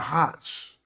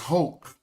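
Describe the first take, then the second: First: The name ends with a 'ch' sound. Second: The name ends with a throaty 'kh' sound. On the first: The speaker calls it wrong. "that's not Hotch" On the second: The speaker calls it right. "pronounce that C H like a oak"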